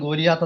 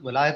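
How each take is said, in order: First: The middle sounds like 'lee-ya', as Go-lee-yath. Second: The middle sounds like 'lie', as Go-lie-ath. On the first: "മലയാളത്തിൽ ഗോലിയാത്ത് എന്നാണ് നമ്മൾ പലപ്പോഴും പറയുന്നത്" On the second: "ഇംഗ്ലീഷിൽ അതിൻ്റെ ഒരു ഉച്ചാരണം"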